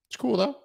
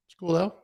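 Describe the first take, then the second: First: Mock reassurance. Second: Said in the usual way. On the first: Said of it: "repeats line in higher voice". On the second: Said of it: "repeats line".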